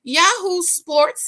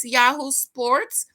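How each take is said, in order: First: Drawn-out Yahoo Sports, high, loud, slow, falling; sports announcer. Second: Slow Yahoo Sports with a rising Yahoo; playful jingle tag ending up; sing-song announcer. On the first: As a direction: boom it like a TV jingle. Announcing sports outlet name. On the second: Second jingle take, rising. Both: Pretend.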